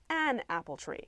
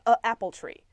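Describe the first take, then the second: First: An n sound links smoothly into 'apple'. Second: A glottal catch separates the article from 'apple'. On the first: The speaker calls it right. "Put the N in there to make it nice and smooth" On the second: The speaker calls it wrong. "that funny glottal stop noise"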